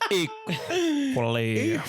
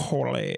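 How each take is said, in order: First: The word is drawn out with a halting break. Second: The word is said quickly with an even beat. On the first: "he remembers that he left his oven on at home" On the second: "Just hit equally like a normal beat. maybe a little bit faster"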